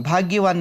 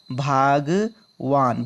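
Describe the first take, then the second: First: Said in the usual way. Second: भागवान said slowly and carefully, syllable by syllable; slow correct form. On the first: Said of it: "भाग्यवान नहीं होता". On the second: Shown as a demonstration. Teacher slowly spells out भागवान for students. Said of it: "क्या होता है?".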